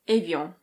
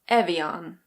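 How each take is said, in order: First: It is said with a French pronunciation. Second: It is said with an American accent. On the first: "In French, this is pronounced Evian" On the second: "And in American English, it's Evian"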